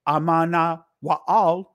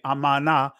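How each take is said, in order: First: The name is said with all its syllables. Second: The name is said with its middle cut short.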